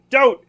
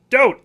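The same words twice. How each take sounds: First: Loud, high cry of don't; loud protesting don't; sharp shout. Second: Said in the usual way. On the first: Real, not acted. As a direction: shout it to stop someone. Yelling at game.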